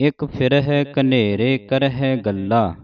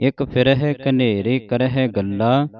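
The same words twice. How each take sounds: No difference in how they are said.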